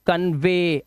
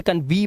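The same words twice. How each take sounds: First: कन्वे ending in a clear "vay"; teacher's careful model of कन्वे. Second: कन्वी ending in "vee"; misreading demo, कन्वी with a "vee" ending; wrong "ee" ending. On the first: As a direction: say कन्वे with "ay", not "ee". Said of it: "जो उच्चारण है वो क्या करना है". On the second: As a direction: say कन्वी with "ee" in place of "ay". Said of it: "अब इसे कन्वी मत पढ़ना". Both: Shown as a demonstration.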